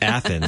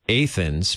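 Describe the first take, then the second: First: It is said the way other regions do. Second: It is said the local Illinois way. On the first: "but in some parts it's Athens" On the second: "here in Illinois, it's Athens"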